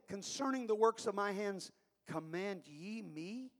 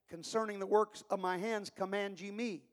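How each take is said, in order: First: It is said as an incredulous question. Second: It is said as a flat statement.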